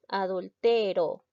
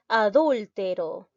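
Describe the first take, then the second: First: The stress is on the second-to-last syllable. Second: The stress is on the third-to-last syllable. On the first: "Vemos que es una palabra grave" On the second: "Es una palabra esdrújula"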